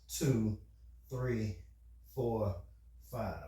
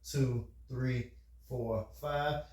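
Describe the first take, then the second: First: The numbers are counted slowly. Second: The numbers are counted quickly.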